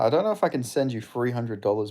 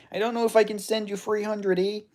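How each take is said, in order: First: Said in the usual way. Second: High-pitched mock Canadian; Canadian accent. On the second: Streamer turns down a money request, put-on Canadian accent. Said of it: "my Canadian accent is good".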